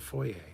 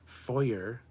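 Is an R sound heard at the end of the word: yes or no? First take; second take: no; yes. First: The word ends without an R sound. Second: The word ends with an R sound. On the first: The speaker calls it right. "It's a foyer" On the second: The speaker calls it wrong. "Foyer is wrong. You don't say the R"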